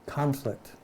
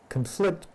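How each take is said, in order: First: Conflict said as CON-flict, stress on the first syllable; noun stress. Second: Conflict said as con-FLICT, stress on the second syllable; verb stress. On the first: Rereading for the group, corrects to CON-flict. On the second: Reading the Course aloud to the group, stress on FLICT. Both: Shown as a demonstration. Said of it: "that word can be conflict or conflict".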